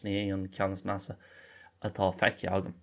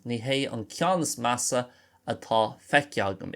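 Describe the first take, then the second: First: No h sound is heard before é. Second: An h sound is heard before é.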